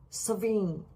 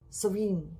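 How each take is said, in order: Both takes have the same delivery.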